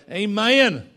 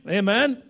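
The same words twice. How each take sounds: First: Loud Southern "Amen", stretched at the end; imitated Southern accent. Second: Said in the usual way. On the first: Preacher showing how little Judah says it, in a loud Southern accent. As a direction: belt "Amen" with a Southern drawl. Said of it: "that's as son as you're gonna get".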